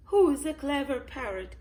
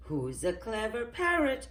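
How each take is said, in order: First: Higher, louder parrot repeat. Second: A little higher, parrot's stock phrase; lightly voiced parrot. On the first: Polly repeats herself to Miss Rabbit, parrot voice. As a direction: repeat it high and loud like a parrot. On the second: Polly has forgotten the list, lightly voiced parrot. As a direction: lightly act a chattering parrot. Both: A narrator's reading. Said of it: "she says".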